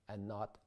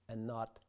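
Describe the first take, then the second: The two takes are said the same way.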